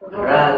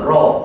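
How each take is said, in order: First: The letter is sounded thin and light, open. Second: The letter is sounded thick and heavy, rounded. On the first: The speaker calls it wrong. "jangan ra ra tu bacaan Imam" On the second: The speaker calls it right. "ro tebal"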